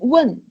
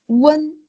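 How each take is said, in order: First: The syllable is said in the fourth tone. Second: The syllable is said in the first tone. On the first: "Fourth one" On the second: "It's the first one"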